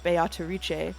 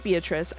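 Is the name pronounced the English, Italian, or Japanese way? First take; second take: Japanese; English. First: The name is said with Japanese pronunciation. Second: The name is said with English pronunciation. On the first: "the Japanese uh actors are saying Beatrice" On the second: "since you were saying Beatrice"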